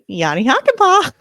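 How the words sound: It is said in a squawky parrot voice.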